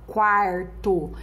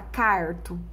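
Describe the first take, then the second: First: A u sound follows the initial k. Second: No u sound follows the initial k. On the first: The speaker calls it right. "aparece o som do U" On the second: The speaker calls it wrong. "Você fala carto? Não"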